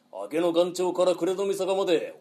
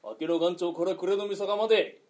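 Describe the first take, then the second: First: Rolling highwayman's declamation; bandit's challenge. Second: Said in the usual way. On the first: Shown as a demonstration. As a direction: declaim the robber's boast. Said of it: "覚えろ". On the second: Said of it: "こういうことは覚えろ".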